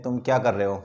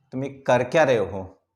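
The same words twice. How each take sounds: First: Said in the usual way. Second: क्या pushed out in annoyance, word moved late; angry question with क्या stressed. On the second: Shown as a demonstration. Teacher showing learners how anger sounds, क्या hit hard. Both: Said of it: "जब आपको anger show करना हो".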